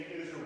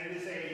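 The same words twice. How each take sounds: The two takes are said the same way.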